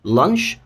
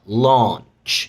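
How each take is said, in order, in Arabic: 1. يُنطق بلكنة أمريكية. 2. يُنطق بلكنة بريطانية، مع إطالة حرف العلة. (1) "هركز بقى على الامريكان pronunciation اكتر" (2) "والتانيه مد بقى"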